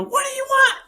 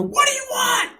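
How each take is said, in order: First: Very high, frantic shriek; retold panicked scream at strangers at the door. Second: High, frantic yell through the door; panicked high-pitched shout at an intruder; scream. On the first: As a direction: yell it higher and harder, demanding an answer. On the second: Retold or imitated. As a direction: scream it in alarm, pitch shooting way up. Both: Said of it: "I scream".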